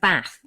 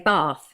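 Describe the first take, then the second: First: It is said in a northern English accent. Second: It is said in a South Wales Valleys accent. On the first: This is how someone from the north says it. "My husband, who is from the north, ... says Bath" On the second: This is how people from the Valleys say it. "in the South Wales Valleys, you say Bath"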